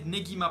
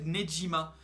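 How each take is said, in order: First: The middle consonant is a hard g sound. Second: The middle consonant is a soft zh sound. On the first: The speaker calls it right. "j'ai prononcé Negima" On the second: The speaker calls it wrong. "dans la première vidéo j'avais prononcé Nejima"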